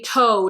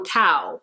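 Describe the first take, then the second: First: The vowel sounds like the one in 'go'. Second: The vowel sounds like the one in 'now'. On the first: The speaker calls it wrong. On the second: The speaker calls it right.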